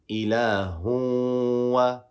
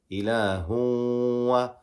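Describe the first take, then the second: The two takes are said the same way.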